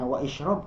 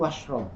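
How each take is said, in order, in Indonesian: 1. Vokal setelah 'wa' diucapkan terpisah. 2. Vokal setelah 'wa' dihilangkan dan disambung. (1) "apakah dibacanya wa isyrob? Tidak" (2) "Tapi kul washrob"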